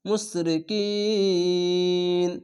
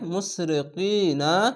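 First: The word stops on n after a lengthened vowel. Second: The word ends with a short vowel after n.

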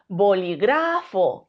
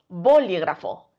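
First: The stress is on the third syllable. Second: The stress is on the first syllable. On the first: "Si creemos que es gra" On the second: "Si creemos que la sílaba tónica es bo"

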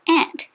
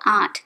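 First: The word is said the American way. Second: The word is not said the American way. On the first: The speaker calls it wrong. "People in the USA have trouble with the words they say" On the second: The speaker calls it right. "Instead of aunt"

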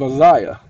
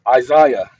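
First: The first syllable is not stressed. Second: The first syllable is stressed. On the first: The speaker calls it wrong. "Got it wrong the first time, okay, because I didn't emphasize the I" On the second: The speaker calls it right. "the original pronunciation of the word Isaiah is Isaiah"

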